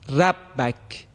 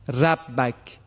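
First: The r sound is light and thin. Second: The same.

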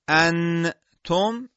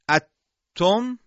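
First: The n is pronounced fully and clearly before t. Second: The n disappears into a doubled t sound. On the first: "انتم این اظهاره" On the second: "اتم این ادغامه"

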